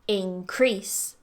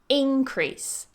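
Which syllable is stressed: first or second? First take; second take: second; first. First: The stress is on the second syllable. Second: The stress is on the first syllable. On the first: It is used as a verb. "the stress goes on the second syllable" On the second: It is used as a noun. "stress on the first syllable. This is the noun"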